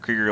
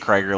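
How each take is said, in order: First: The first vowel rhymes with seeker. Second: The first vowel rhymes with tiger. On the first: The speaker calls it right. "Krieger like Seeker" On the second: The speaker calls it wrong. "I still just want to say Krieger like Tiger"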